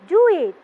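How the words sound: The voice falls at the end. The speaker calls it right. "Your voice will be going down"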